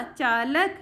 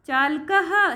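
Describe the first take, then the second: First: Said in the usual way. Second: चालकः with the final visarga sounded as "कहः", raised; Sanskrit form with visarga. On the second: Shown as a demonstration. Teacher gives the Sanskrit word to students, visarga sounded. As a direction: say चालकः ending in a breathy echo "हः". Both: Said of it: "driver को बोलते हैं बेटा चालकः".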